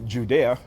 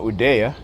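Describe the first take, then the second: First: The name begins with a J sound. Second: The name begins without a J sound. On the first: The speaker calls it wrong. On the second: The speaker calls it right.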